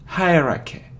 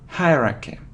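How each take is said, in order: The two takes are said the same way.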